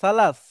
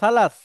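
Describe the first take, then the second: No difference in how they are said.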